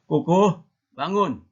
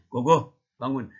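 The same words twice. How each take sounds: First: Higher, louder mock mother calling a child awake; raised-pitch wake-up call, acted as mom; mother's wake-up call. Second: Loud, unraised mock father voice; lightly acted dad ordering a child up; father's wake-up call. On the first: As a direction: call out loudly as a mother rousing a sleeper. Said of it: "Alah, mama". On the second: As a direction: rouse the child firmly, as a dad. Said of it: "Pas datang ayahnya".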